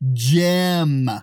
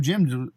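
First: The name is said with emphasis and an 'eh' vowel. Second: The name is said lightly with a short 'ih' vowel. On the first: The speaker is clarifying who is meant after being asked. "When you put the emphasis on it, you always go to the G-E-M" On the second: The speaker is just mentioning a neighbour in passing. "I'm going to say it normal"

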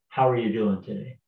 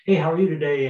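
First: It sounds like a sincere, caring question. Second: It sounds like a quick, casual throwaway greeting.

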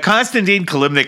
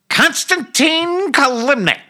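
First: The name is said in his normal voice. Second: The name is said in a put-on character voice.

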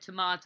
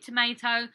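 First: It is said with a British-style middle vowel. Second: It is said with an American-style middle vowel. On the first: This is the speaker's own usual pronunciation. "when I call something a tomato" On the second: This is how the local people say it. "they say, you mean tomato?"

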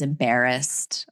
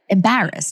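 First: It is said in a general American accent. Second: It is said in a New Jersey accent. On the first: "the rest of the world says embarrassed" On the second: "that's so Jersey"

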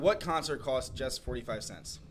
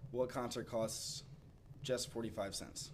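First: It is said loudly. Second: It is said quietly.

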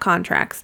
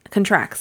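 First: The stress is on the first syllable. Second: The stress is on the second syllable. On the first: It refers to legal agreements. The speaker calls it wrong. "not contracts, because you know you can't contract rabies" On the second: The dog catches the disease. The speaker calls it right.

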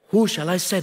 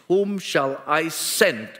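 First: It sounds unsure and puzzled. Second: It sounds firm, demanding a response.

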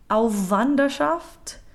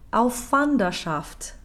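First: The W after auf is voiced. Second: The W after auf is unvoiced and lengthened. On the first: The speaker calls it wrong. "What we cannot do is make them both voiced" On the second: The speaker calls it right. "a slightly lengthened, unvoiced consonant"

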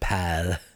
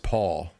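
First: The vowel is a short 'a' sound. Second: The vowel is a long 'aw' sound. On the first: "But they pronounce it pal" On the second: "the serial killer's name is Paul"

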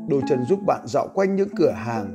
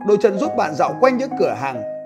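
First: It is read in a deep bass voice. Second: It is read in a high voice.

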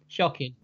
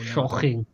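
First: It is said in the speaker's ordinary accent. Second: It is said in a put-on Welsh-sounding accent. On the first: "I should have said it with a Sean Connery-esque accent" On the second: "I went Welsh, didn't I?"

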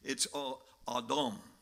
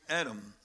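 First: Adam is said in a Hebrew-style pronunciation. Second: Adam is said in a plain English pronunciation. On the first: "according to the Hebrew pronunciation" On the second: "that's the way we say it"

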